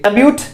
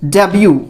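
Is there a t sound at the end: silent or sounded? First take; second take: sounded; silent. First: It ends with a clear t sound. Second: It ends on a vowel with no t. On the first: The speaker calls it wrong. "अगर आप इससे डेब्यूट पढ़ रहे हैं तो ... गलत हैं" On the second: The speaker calls it right. "इसका जो उच्चारण होगा वो क्या होगा"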